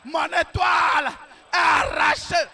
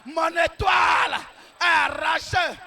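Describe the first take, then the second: No difference in how they are said.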